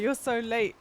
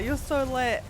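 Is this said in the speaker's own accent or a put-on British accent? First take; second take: own accent; put-on British. First: It is said in the speaker's natural accent. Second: It is said in a put-on British accent.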